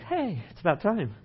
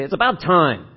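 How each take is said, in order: First: Cheerful, easygoing. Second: Louder, stressing about, a reproachful it's about time; pointed reproach. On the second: Pastor showing the congregation a scolding inflection, reproachful. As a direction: say it like they're finally late. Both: Shown as a demonstration. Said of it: "same words with a little different inflection".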